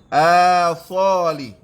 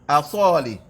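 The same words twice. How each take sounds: First: The vowel after the glottal stop is held long. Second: The vowel after the glottal stop is kept short.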